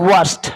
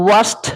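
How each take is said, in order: The two takes are said the same way.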